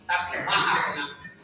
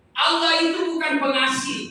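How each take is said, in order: First: "Maha" hit firmly with a falling close; stress on MAHA. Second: Bukan said loud and high, denying Allah is merely pengasih; loud rising setup on "bukan"; stress the negation. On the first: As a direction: land the correction on "Maha Pengasih". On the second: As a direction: raise the voice on "bukan pengasih" as the rejected idea. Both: Shown as a demonstration.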